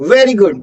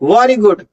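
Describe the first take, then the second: First: The first word starts with a V sound. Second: The first word starts with a W sound. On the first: The speaker calls it right. "वी का sound आना है" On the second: The speaker calls it wrong. "Not"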